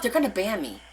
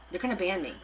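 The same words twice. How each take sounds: First: Said in the usual way. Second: Muttered worry. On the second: Real, not acted.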